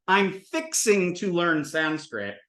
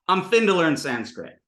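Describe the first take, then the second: First: "fixing to" slowly and in full. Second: "fin to" run together as "finna"; contracted fixing to. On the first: Teacher giving the Southern phrase, slow and deliberate. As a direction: spell out each syllable of "fixing to". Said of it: "taking the sort of Southern American". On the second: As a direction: shrink "fin to" into one quick word. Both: Shown as a demonstration.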